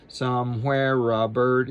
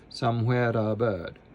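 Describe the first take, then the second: First: An R sound links somewhere to a. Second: A light D sound links somewhere to a. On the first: The speaker calls it wrong. "instead of" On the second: The speaker calls it right. "eliminate the R and put a D right next to this A"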